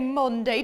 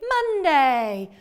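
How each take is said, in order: First: The first vowel sounds like the 'o' in 'on'. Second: The first vowel sounds like the 'u' in 'up'. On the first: The speaker calls it wrong. "we don't say Monday" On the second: The speaker calls it right. "We say Monday. The uh is a bit tricky"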